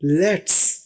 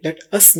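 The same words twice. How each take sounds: First: Let's as one clipped syllable, no u; let's said as one short word; the correct spoken let's; contracted let's. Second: The wrong, spelled-out let us; uncontracted let us. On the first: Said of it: "let us नहीं बोलेंगे, let's". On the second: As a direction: let us as two full words, not contracted. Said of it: "इसको let us नहीं बोलेंगे". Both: Shown as a demonstration.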